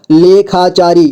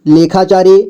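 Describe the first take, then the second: First: लेखाचारी in measured, separate syllables. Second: Said in the usual way. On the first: Shown as a demonstration. Teacher breaking down लेखाचारी for learners, syllable by syllable. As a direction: sound out लेखाचारी piece by piece. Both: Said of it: "जोड़ जोड़ करके".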